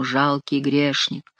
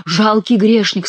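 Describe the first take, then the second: First: Slow and hushed, heavy with sorrow; mild, slow mourning voice; gloomy, mournful tone. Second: Slow, weighty mock-solemn boom; slower, hammed-up divine pronouncement; mock voice of God. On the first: A narrator's reading. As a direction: intone it darkly like a doom. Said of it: "ещё более мрачным и скорбным тоном". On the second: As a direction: echo the accusing voice with a jester's relish. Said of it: "сказал голос".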